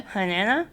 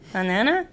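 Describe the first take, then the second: First: The word is said with air escaping through the nose. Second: The same.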